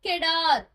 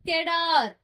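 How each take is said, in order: No difference in how they are said.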